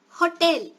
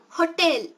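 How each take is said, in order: The two takes are said the same way.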